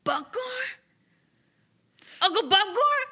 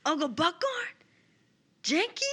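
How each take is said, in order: First: High, welling-up cry building to loud; tearful. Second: Tearful. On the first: Player voices Boudreaux finding his caged uncle, tearful. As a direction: call out through tears, pitched high. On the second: Player repeats Boudreaux's call to caged family in Draconic, tearful. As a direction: call to family in a high, welling-up voice. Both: Acted. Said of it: "so he starts crying. It starts welling up".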